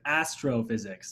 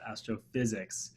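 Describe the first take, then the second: First: The stress falls on the first part, astro. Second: The stress falls on the second part, physics. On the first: The speaker calls it right. "I emphasized the wrong word" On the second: The speaker calls it wrong. "not astrophysics"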